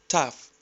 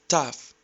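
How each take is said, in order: Both takes have the same delivery.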